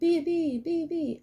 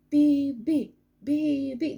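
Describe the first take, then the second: First: The B's follow each other without a long pause. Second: A long pause follows the first B.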